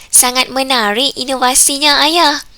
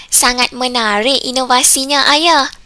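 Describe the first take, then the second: Both takes have the same delivery.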